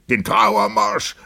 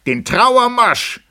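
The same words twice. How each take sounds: First: Drawn-out call, moderately raised; echoed call. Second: Very high, drawn-out loud cry; shouted demand. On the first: Several guests repeat the demand for music, echoed call. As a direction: echo the demand, less intensely. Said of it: "wiederholten mehrere". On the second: Benkyö demands the funeral march, shouted demand. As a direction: shriek the order slowly to the band. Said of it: "schrie Benqiu". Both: A narrator's reading.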